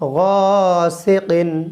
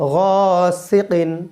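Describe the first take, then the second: First: The second syllable's vowel is kept short. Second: The second syllable's vowel is kept short.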